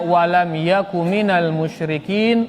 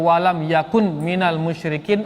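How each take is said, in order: First: The n at the end of yakun is dropped. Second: The n at the end of yakun is pronounced. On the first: The speaker calls it right. "dihilangkan nunnya" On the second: The speaker calls it wrong. "agak kesandak sekali rasanya"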